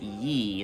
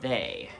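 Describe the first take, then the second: First: The word begins with a 'y' sound. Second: The word begins with a 'th' sound. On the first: The speaker calls it wrong. "when you pronounce it ye, that's actually wrong" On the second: The speaker calls it right. "would have been pronounced they"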